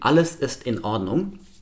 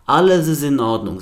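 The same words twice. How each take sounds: First: Each word starts with a glottal stop, cleanly separated. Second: The words run together without glottal stops. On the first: "ist das im Deutschen soweit alles in Ordnung" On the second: "Sie würden die Wörter binden"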